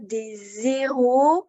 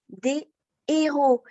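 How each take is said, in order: First: A z sound links des to héros. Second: No z sound links des to héros. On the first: Several losers or useless people. The speaker calls it wrong. "on entendra des héros, ce qui signifie des nuls" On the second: Several heroes. The speaker calls it right. "On dira donc au pluriel des héros"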